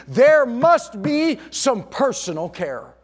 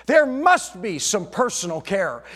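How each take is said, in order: First: "there must be some personal care" slow, louder and higher, "there" hit hard; emphatic slow stress. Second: Said in the usual way. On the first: Shown as a demonstration. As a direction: drag it out and land "there" like a verdict.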